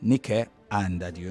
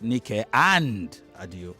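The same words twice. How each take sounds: First: The word 'and' is reduced and unstressed. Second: The word 'and' is full and stressed. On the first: The speaker calls it right. "and is a weak form, a weak form word" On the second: The speaker calls it wrong. "not Nike and Adio"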